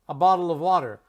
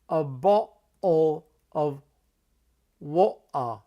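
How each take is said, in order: First: It is said in an American accent. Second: It is said in a London accent. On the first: "I'm just going to spell it like we say it" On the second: "in parts of London, they'll say"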